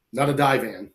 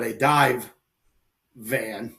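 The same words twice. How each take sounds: First: "dive van" said with the v running into "van"; die van, words run together. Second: "dive" and "van" split by a clear pause; dive van, separated. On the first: Clearing up a mishearing of his story, words run together. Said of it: "but a dive van". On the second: Correcting what kind of van it was, carefully separated words. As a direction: finish "dive", stop, then say "van". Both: Shown as a demonstration.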